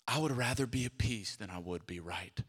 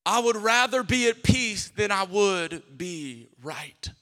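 First: Low and soft, spoken not sung; quiet restatement. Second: Slow sung phrase over the music; sung line. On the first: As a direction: say it softly, almost to yourself. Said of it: "repeated spoken". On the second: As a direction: croon it slowly, like a refrain. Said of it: "sing music". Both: Acted.

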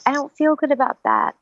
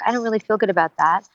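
First: Higher, more upset read of the line; second take, higher and more distressed; a different emotion. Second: A mildly troubled read of the line; first take, subdued and doubtful; one emotional read. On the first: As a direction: let the hurt push the pitch up. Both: Shown as a demonstration. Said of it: "implement different emotions".

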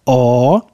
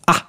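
First: A as a long, dark 'aah'. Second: A as a quick, open 'a'; short A. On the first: Teacher summing up the lesson, long drawn-out A. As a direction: hold A long, from far back. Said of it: "pronounce a nice long". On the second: Teacher summing up the lesson, short clipped-vowel A. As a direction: cut A short, mouth open. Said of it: "and a short". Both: Shown as a demonstration.

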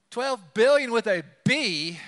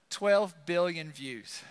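First: Billion punched loud and high, with a B spelled out; stress on billion. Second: Said in the usual way. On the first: Real, not acted. Pastor stunned by the view count, stress on billion. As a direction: hammer billion with a B.

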